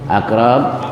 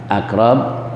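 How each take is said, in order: No difference in how they are said.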